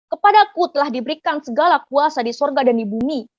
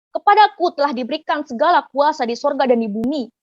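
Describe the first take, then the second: No difference in how they are said.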